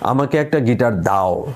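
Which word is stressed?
দাও. The stress is on the fourth word. It must be given, or it will be taken by force. "যদি চতুর্থ শব্দে জোর দিই"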